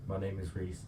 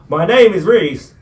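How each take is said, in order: First: Barely audible mumble; quiet. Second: Shouted, much higher and slower; to someone hard of hearing. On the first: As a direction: say it under your breath. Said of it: "Can you speak up". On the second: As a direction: yell it so they finally hear. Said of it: "Bit louder, please". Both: Real, not acted.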